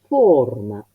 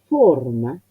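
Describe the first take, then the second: No difference in how they are said.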